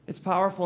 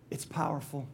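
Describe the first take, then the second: First: Said in the usual way. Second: Soft unvoiced whisper, much softer. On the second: Shown as a demonstration. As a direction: breathe it like a secret full of awe. Repeated line, first whispered.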